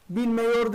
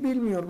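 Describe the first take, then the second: First: "Bilmiyor" said as bilmeyor, with an open e before yor; wrong form bilmeyor. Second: "bilmiyor" with a clear narrow i before yor; correct narrowed form. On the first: Teacher showing students the wrong form bilmeyor. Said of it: "Bilmiyor değil". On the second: Teacher giving students the correct narrowed bilmiyor. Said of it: "Bilmiyor değil, bilmiyor". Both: Shown as a demonstration.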